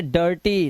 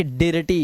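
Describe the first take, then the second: First: डर्टी with an uh vowel before r; correct pronunciation. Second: डिर्टी with an i before r; wrong spelling pronunciation. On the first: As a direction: say डर्टी as dur-tee. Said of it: "इसे पढ़ेंगे डर्टी". (डर्टी में अ की आवाज़) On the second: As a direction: say डिर्टी as di-r-tee, letter by letter. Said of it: "ना कि डिर्टी". (डिर्टी में इ की आवाज़) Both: Shown as a demonstration.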